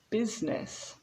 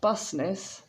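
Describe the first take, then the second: First: The first vowel sounds like the vowel in bit. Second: The first vowel sounds like the vowel in bus. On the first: The speaker calls it right. "but business" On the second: The speaker calls it wrong. "it's not busness"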